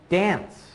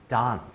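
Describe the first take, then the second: First: It is said in an American accent. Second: It is said in a British accent. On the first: "I would say dance" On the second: "They would say dance"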